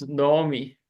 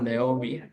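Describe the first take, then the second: First: Naomi said as "no-oh-mee"; correct Hebrew pronunciation. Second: Naomi said as "nay-oh-mee"; mistaken English pronunciation. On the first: Teacher telling student the proper name, Hebrew pronunciation. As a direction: give Naomi an O in the first syllable. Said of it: "it should be pronounced as Naomi". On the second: Teacher showing what not to say, English pronunciation. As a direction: put "ay" in the first syllable of Naomi. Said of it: "not Naomi". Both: Shown as a demonstration.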